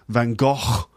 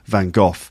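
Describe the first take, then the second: First: It is said with a non-British pronunciation. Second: It is said with a British pronunciation. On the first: "In other countries it's like Van Gogh" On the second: "I say Vincent van Gogh in British English. Normally it's Van Gogh"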